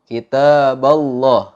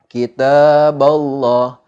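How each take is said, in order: The two takes are said the same way.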